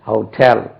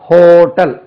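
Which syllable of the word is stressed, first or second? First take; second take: second; first. First: The stress is on the second syllable. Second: The stress is on the first syllable. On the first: The speaker calls it right. "ரெண்டாவது அசைவுக்கு தான் அழுத்தம் கொடுக்க வேண்டும்" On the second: The speaker calls it wrong. "நம்ம எப்படி சொல்றோம் hotel"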